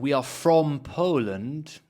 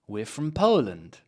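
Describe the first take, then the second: First: The word from carries clear stress. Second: The word from is weak and unstressed. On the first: The speaker calls it wrong. "rather than we are from Poland, no, why we don't need to stress from" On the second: The speaker calls it right. "Let's unstress it"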